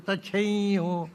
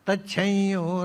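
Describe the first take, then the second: First: The m becomes a nasalized vowel before y. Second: The same.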